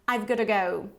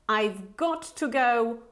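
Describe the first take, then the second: First: The phrase is said very fast. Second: The phrase is said at a normal pace.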